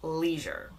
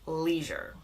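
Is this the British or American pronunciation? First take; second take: American; American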